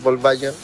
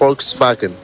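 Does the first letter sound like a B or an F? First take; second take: B; F. First: The first sound is a soft B-like sound. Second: The first sound is an F sound. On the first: The speaker calls it wrong. "no es Volkswagen" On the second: The speaker calls it right. "se pronuncia como F"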